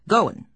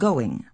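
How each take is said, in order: First: The ending is said without the final g sound. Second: The ending is said with the full ng sound. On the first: The speaker calls it wrong. "drops the ing sounds at the end of words" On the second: The speaker calls it right. "rather than going"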